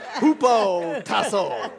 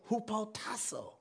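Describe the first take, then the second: First: The word is said boldly and forcefully. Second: The word is said tentatively and quietly. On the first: The speaker commits to the pronunciation. "Let me say that with my chest" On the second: The speaker is unsure of the pronunciation. "I might mess up this word"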